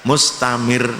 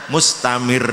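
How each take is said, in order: No difference in how they are said.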